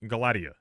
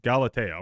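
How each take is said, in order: First: Galatia said guh-LAD-ee-uh; uncertain pronunciation. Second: Galatea said gal-uh-TAY-uh; corrected pronunciation. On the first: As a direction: say Galatia with stress on LAD, ending ee-uh. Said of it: "I don't know if that's how that's pronounced". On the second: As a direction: say Galatea with stress on TAY, ending in uh. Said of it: "we're gonna call it". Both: Real, not acted.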